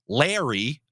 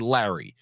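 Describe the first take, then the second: First: The first vowel sounds like in lair. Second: The first vowel does not sound like lair. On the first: The speaker calls it wrong. "they add an I in Larry, like come into my lair" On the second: The speaker calls it right. "It's supposed to be Larry"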